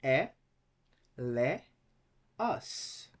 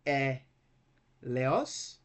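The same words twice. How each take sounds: First: E, le, os as three beats with pauses; isolated syllables E, le, os. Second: E, pause, then leos run together as one syllable; two-beat e, leos; wrong syllable split. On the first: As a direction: separate every vowel in E, le, os. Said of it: "Three syllables". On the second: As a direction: split only after e, joining leos. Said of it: "So we cannot say". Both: Shown as a demonstration.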